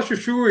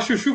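First: "chuchu" said as "chuchur"; added final R. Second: Said in the usual way. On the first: Shown as a demonstration. Friend mocks interior towns, "chuchu" with an R added. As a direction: stick a countryside R on the end of "chuchu". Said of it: "põe R onde não tem". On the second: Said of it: "Em vez de falar chuchu".

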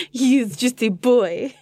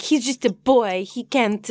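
First: Slow, laughing French accent. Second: Lightly voiced French accent, mock pity; a hint of a French accent as Fleur. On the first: Shown as a demonstration. Asked by cohost to keep it, slow French accent. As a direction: lean into the French accent, slowly. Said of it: "Can we do the rest ... little French accent". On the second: Recapping Fleur at the judges, light French accent. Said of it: "this little French accent".

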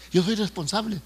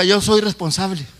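First: Said in the usual way. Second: "Yo soy responsable" said slowly and firmly; slow prompting declaration. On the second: Shown as a demonstration. Preacher has congregation repeat "Yo soy responsable", slow prompting declaration.

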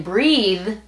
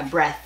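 First: "breathe" with long ee and buzzing th; drawn-out "breathe", humming final th; voiced th. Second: "breath" with short e and voiceless th; short "breath", hissed-air th at the end; silent th. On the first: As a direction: stretch the ee in "breathe", keep voice through th. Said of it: "la T H ahora le vas a poner voz". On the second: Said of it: "la T H es silenciosa". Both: Shown as a demonstration.

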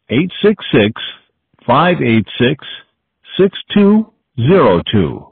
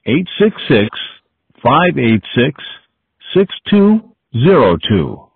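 No difference in how they are said.

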